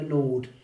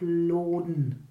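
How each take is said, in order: First: The word ends without an n sound. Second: The word ends with an n sound. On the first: "oder lässt man es weg" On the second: "Hängt man das N da hinten hin"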